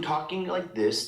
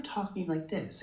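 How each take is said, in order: First: Demonstrating the lower speaking voice; lower voice demo. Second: Lightly mimicked higher, airy little voice; higher, mousy voice. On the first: Showing how a singer changes speech, lower voice. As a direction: drop into her lower register. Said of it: "she changes the way that she speaks". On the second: Showing how a singer changes speech, higher mousy voice. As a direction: lift it up a bit, mousy and airy. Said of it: "bit higher and a little bit". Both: Shown as a demonstration.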